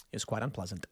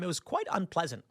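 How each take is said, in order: First: Much softer and lower, under the breath; quiet deadpan repeat; muttered low aside. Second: Said in the usual way. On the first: Shown as a demonstration. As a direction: drop the voice to a dry, quiet mutter. Repeats the line, dropping low.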